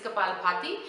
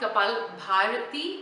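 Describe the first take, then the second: First: The second word has two syllables, with no r. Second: The second word has three syllables, with an r. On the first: The speaker calls it right. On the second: The speaker calls it wrong. "It's not"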